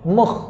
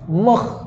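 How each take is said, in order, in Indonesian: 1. Ia berakhir dengan bunyi tekak yang serak. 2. Ia berakhir dengan bunyi tekak yang serak.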